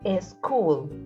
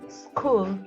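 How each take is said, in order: First: An extra e vowel comes before the s. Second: It starts directly with the s sound. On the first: The speaker calls it wrong. "as a street and a school" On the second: The speaker calls it right. "you pronounce the words street and school"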